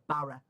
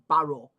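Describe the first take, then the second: First: The name is said in a broad local way. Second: The name is said carefully and fully articulated. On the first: This is how most local people say it. "instead of Barra" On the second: The speaker was raised to speak correctly. "I say Barrow"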